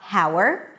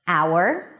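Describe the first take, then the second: First: The word starts with an audible H sound. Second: The word starts with a vowel, no H. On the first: The speaker calls it wrong. "It's not" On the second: The speaker calls it right. "the H is there in the spelling, but is absolutely not pronounced"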